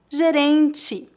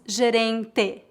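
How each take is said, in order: First: The final vowel sounds like 'ee'. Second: The final vowel sounds like 'eh'. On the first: The speaker calls it right. "a vogal E é pronunciada como I em final de palavras" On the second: The speaker calls it wrong. "Não dizemos gerente"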